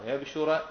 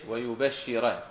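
First: ويبشر as wa-yab-shu-ra, ending in a; light-sheen reading. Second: ويبشر as wa-yu-bash-shi-ra; doubled-sheen reading. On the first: Teacher showing the Kahf verse, ويبشر as wa-yab-shu-ra. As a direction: still b, single sh in ويبشر. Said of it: "وضم الشين مع التخفيف". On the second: Teacher contrasting the other readers, ويبشر as wa-yu-bash-shi-ra. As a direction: damma on ya, held double sh in ويبشر. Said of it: "بخلاف البقية إيش؟". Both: Shown as a demonstration.

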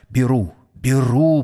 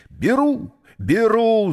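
First: Understated, insistent repetition; insistent repeating. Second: High, urgent cry. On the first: Числов waits with a hand on Mary's neck, repeating insistently. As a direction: repeat it firmly, barely raising the voice. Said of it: "повторял он". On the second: Числов jumps in to buy Mary, crying out. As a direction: burst out with it, pitch leaping up. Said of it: "закричал он". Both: A narrator's reading.

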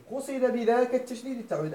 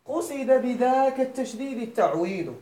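First: Said in the usual way. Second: "قصد بذاك التشديد التعويض" read slowly, leaning on بذاك; slow emphatic quote. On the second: Shown as a demonstration. Teacher to students, slow stressed reading of the paraphrase. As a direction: spell out the reconstructed phrase, stressing بذاك. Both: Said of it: "إذن كأنه قال".

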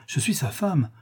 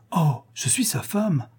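First: Said in the usual way. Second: Slow, dreamy "je suis sa femme" with a sigh on "Oh"; rapt, slow repetition. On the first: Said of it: "countess claims to be wife". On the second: A narrator's reading. Countess repeats to herself she is his wife, slow and dreamy. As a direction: savour "je suis sa femme", lingering. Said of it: "countess repeats, rapt".

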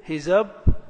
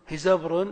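First: هزبر slowly as هِزَبْ، رٌ with a long gap; split into syllables. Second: Said in the usual way. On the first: Shown as a demonstration. Teacher sounding out an example, هزبر broken before the ending. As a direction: hold off the last syllable of هزبر. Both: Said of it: "التنغيم الصوتي".

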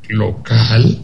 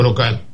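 First: "¿Local?" drawn into a rising question; incredulous, dismissive question. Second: Said in the usual way. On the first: Retold or imitated. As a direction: echo "¿Local?" as if it were absurd. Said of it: "La pregunta y el tono quiere decir, "No jodas". («¿Local?» en tono de pregunta incrédula y despectiva) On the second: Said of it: "La pregunta y el tono".

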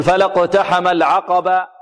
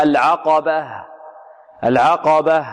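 First: Slow "فلا اقتحم العقبة" ending in an open long "baa"; final ha as alif. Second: Slow "العقبة" ending in an audible breathed "h"; clear final ha. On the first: Teacher shows a stopping error, "العقبة" without final h. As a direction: end "العقبة" on a bare long a, no h. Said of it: "البعض ربما يقلبها ألفا". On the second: Teacher corrects the error, "العقبة" with clear ending h. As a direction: stop on "العقبة" as al-'aqabah, h heard. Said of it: "لا، خطأ". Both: Shown as a demonstration.

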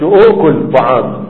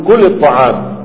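First: "أؤكل" said slowly with the hamza kept, as the wrong form; teacher slowly spelling out "أؤكل" with a glottal stop, as the mistake; wrong form demo. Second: Said in the usual way. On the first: Shown as a demonstration. Teacher to students, showing the wrong form "أؤكل" slowly. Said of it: "ما بتقولش". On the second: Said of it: "بتقول".

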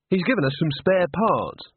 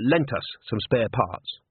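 First: Said in the usual way. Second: Lent leaned on, slow correction; a careful fix, lent weighted and slowed; stress on lent. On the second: Acted. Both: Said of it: "Sorry, uh".

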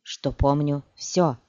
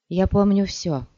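First: Cold, slow and final. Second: Said in the usual way. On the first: Acted. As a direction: drop it coldly, slowly. (холодно и медленно) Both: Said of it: "холодно бросила Цири".

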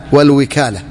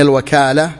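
First: والوكالة said as "wikala", i after the w; والوكالة with the waw carrying kasra, "wal-wikala"; والوكالة pronounced "wal-wikala", waw with an i vowel. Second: الوكالة said as "wakala", open a after the w; الوكالة with the waw carrying fatha, "al-wakala"; الوكالة pronounced "al-wakala", waw with an a vowel. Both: Shown as a demonstration. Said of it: "بفتح الواو وكسرها".

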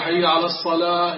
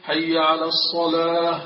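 First: الصلاة said with a س, not a ص; wrong call. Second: الصلاة with a clear ص; slow adhan with a clean sad; correct call. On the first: Retold or imitated. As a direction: mispronounce الصلاة as السلاة. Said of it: "وأما إذا قال". (نطق خاطئ بالسين) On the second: Shown as a demonstration. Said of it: "بدل أن يقول". (نطق صحيح للصاد)

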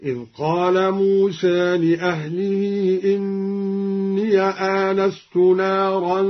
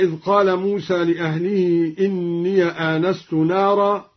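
First: "موسى" with slightly e-tinged ending, "إني" as inniya; taqlil. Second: Said in the usual way. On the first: Shown as a demonstration. Teacher demonstrating al-Duri, slow chant with softened aa in "موسى". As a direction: chant slowly, shading "موسى" toward e and opening "إني" to inniya. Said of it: "هكذا". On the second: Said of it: "قرأ الدوري بتقليل موسى".

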